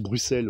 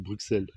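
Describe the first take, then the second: First: The x is pronounced as a plain s sound. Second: The x is pronounced as a ks sound. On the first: This is said to be the proper pronunciation. The speaker calls it right. "Comme dans Bruxelles" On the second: This is the pronunciation to avoid. The speaker calls it wrong. "au lieu de Bruxelles"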